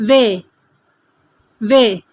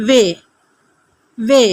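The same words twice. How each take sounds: The two takes are said the same way.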